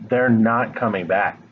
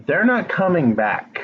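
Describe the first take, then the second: First: Said in the usual way. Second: NOT pushed up higher, said bluntly and firmly; blunt emphasis. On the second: Real, not acted. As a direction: land the hard truth, leaning on not. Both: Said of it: "I just feel like you need to hear that".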